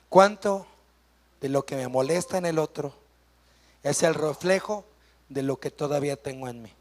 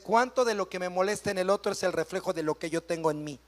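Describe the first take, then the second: First: It is said slowly. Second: It is said fast.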